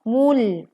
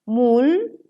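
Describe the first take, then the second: First: The L is thin, lips back in place. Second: The L is thick, lips still rounded. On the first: The speaker calls it right. "Sehingga lam terdengar tipis" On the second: The speaker calls it wrong. "Maka lam yang terdengar akan menjadi tebal dan ini keliru"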